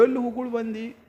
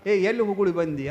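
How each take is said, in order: First: Mock mumble, words muddied by chewing tobacco; mouth full. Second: Said in the usual way. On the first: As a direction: imitate talking through a mouthful of betel. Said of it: "ಇವ್ ಬಾಯಿ ತುಂಬ ತುಂಬಿಕೊಂಡಿದ್ದು". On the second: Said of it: "ಅವ ಅಂದ".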